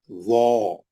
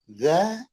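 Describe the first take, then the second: First: वो as a heavy "zaw", low and rounded; thick. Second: ज़ा with a spread, unrounded "a"; thin. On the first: Teacher sets heavy against thin for students, thick and low. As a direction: round the mouth on a buzzing, heavy वो. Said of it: "सात हरफों को मोटा करने". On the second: Teacher sets thin against heavy for students, spread-mouthed. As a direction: keep ज़ा light after the buzzing z. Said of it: "पतला". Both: Shown as a demonstration.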